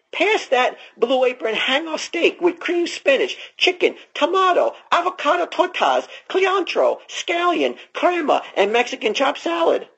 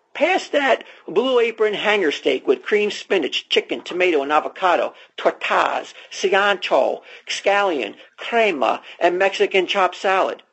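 First: Reads the menu much higher, a lightly voiced character; a hint of a goofy character voice; put-on high voice. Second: Ad read. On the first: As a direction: lift the voice high through the list. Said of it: "doing with his accent". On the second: Acted. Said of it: "we'll just start from here".

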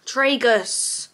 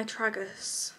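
First: Tragus as TRAY-gus, long a. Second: Tragus as TRAG-us, short a. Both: Shown as a demonstration. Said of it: "Is it tragus?".

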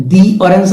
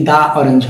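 First: "the orange" with the as a long "dee"; "thee" before vowel. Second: "the orange" with the as open "daa"; "thuh" alternative. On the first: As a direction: stretch "the" in "the orange" to rhyme with see. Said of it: "অরেঞ্জ অ উচ্চারণটা হচ্ছে". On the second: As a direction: say "the" in "the orange" as "duh", no ee. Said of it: "দা উচ্চারণ না করে". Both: Shown as a demonstration.

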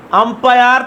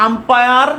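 Both takes have the same delivery.

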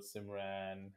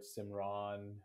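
First: Simran as "sim-RAN", flat A as in "ran"; name mispronounced. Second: Simran as "sim-RAHN", open AH at the end; name mispronounced. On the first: Guest quoting variations of their name, Simran said as "sim-RAN". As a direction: stretch Simran out with the vowel of "cat" in the second syllable. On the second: Guest quoting variations of their name, Simran said as "sim-RAHN". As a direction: stretch Simran out with a long "ah" in the second syllable. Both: Retold or imitated. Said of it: "I've heard different variations of Simran".

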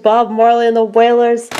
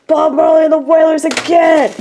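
First: Said in the usual way. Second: Excited shout. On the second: Real, not acted. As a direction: shout it out in delight. Finds another [name] CD.

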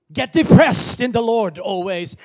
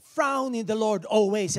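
First: Loud, higher mocking misquote. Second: Loud mocking wrong verse; mock misquote. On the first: Preacher shouting a mock misquote at the congregation. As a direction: belt out the wrong verse. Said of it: "now I'm saying it again, depressed". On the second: Preacher mocking a misquoted verse, loud. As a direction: ham up the wrong word frown. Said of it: "and I'm saying". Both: Shown as a demonstration.

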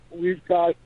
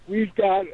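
Both takes have the same delivery.

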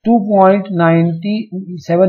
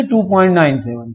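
First: टू पॉइंट नाइंटी सेवन with नाइंटी सेवन as one number; टू पॉइंट नाइंटी सेवन, decimal part read as ninety-seven; wrong reading. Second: टू पॉइंट नाइन सेवन with नाइन and सेवन as separate digits; टू पॉइंट नाइन सेवन, each digit after the point read alone; correct reading. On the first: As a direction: read नाइंटी सेवन as a whole number after the point, the way not to. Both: Shown as a demonstration. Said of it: "नहीं बोलेंगे इसको".

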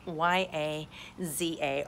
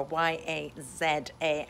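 First: Letter by letter, Z pronounced "zee"; American zee spelling. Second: Letter by letter, Z pronounced "zed"; European zed spelling. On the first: Spelling the app's name for viewers, Z said as "zee". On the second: Respelling the app's name as in Europe, Z said as "zed". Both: Shown as a demonstration. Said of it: "as we say in Europe".

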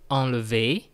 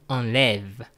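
First: Enlever said "ahn-luh-VAY"; schwa before final é. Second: Enlève said "ahn-LEV"; open è. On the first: Teacher contrasting infinitive with conjugated form, schwa then é. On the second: Teacher showing learners the changed vowel, open è. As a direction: stretch enlève on an open "eh", closing on v. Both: Shown as a demonstration. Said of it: "that's the sound change".

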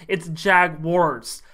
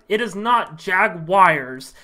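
First: "Jaguars" said slow as "Jag-wars", two syllables; right Jaguars. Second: "Jaguars" said slow as "Jag-wires", three syllables; wrong Jaguars. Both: Shown as a demonstration. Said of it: "how many times I have to tell".

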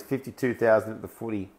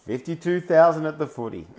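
First: Said in the usual way. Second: Laughing disbelief. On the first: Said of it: "Aaron's just saying there in the comments". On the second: Real, not acted. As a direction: repeat it again, higher and louder, laughing through it. Repeats comment, laughing in disbelief.

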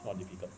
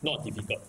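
First: "Not difficult" said again much softer and lower; softer repeat. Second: Said in the usual way. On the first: Shown as a demonstration. Teacher softly reassures the class, quiet. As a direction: drop the voice to reassure.

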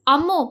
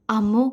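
First: Calling a name in annoyance; higher, irritated call; mildly cross summons; angry call. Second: Gentle calling of a name; tender, subdued summons. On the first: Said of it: "അവൻ ദേഷ്യത്തോടെ വിളിച്ചു". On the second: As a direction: soften into affection, anger let go. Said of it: "അത്രയും ആർദ്രമായ സ്വരത്തിൽ". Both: A narrator's reading.

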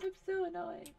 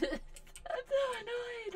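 First: A bit higher, whiny complaint; mild whining annoyance; annoyed whine. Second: High, laughing, slow complaint; much higher laughing moan of annoyance; laughing whine. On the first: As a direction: grumble it with a sigh. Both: Real, not acted.

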